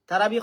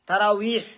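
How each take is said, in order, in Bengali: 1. মাঝের ব্যঞ্জনটি B উচ্চারণ। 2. মাঝের ব্যঞ্জনটি W উচ্চারণ। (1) "তারাবি কই ফাইলা" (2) "ওয়াও উচ্চারণ করতে পারেন না নি"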